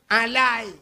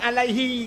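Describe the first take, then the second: First: The final 'hi' syllable is left off. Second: The final 'hi' syllable is clearly said. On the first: The speaker calls it wrong. "yang salah" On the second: The speaker calls it right. "Alai gun kan alaihi"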